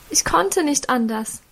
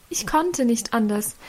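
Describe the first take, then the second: First: Tearful insistence. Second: Softer, sinking tearful repeat; quieter tearful repeat. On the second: Mother repeats her tearful plea to Karl, softer. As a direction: let the tearful plea fade away. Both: A narrator's reading. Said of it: "versicherte Mutter noch einmal unter Tränen".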